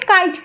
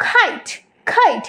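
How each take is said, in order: First: "কাইট" with an unaspirated k; wrong kite. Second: "খাইট" with a puffed kh; correct kite. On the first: Teacher shows what to avoid, dry-k "কাইট". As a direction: say "কাইট" with no puff. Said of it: "কাইট বলবো না". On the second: Teacher models correct kite, aspirated "খাইট". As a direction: burst air into the start of "খাইট". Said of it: "আমরা বলবো". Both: Shown as a demonstration.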